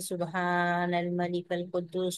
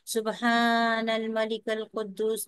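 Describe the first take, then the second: First: It is said in a soft voice. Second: It is said in a louder voice.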